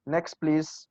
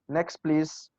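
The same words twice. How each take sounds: First: The two words are joined and said fast. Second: The two words are joined and said fast.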